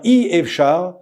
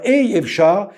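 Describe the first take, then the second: First: The first vowel is a short 'ee' sound. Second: The first vowel is an 'ay' sound. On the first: "c'est aleph avec un i qui est le chirik" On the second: "la lettre aleph avec euh, un, un, un tséré"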